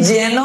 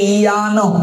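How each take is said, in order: First: It begins with a Bengali j sound. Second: It begins with a Sanskrit y sound. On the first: "Bangla ব্যাকরণে" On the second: "সংস্কৃত ব্যাকরণে উচ্চারণ করলে"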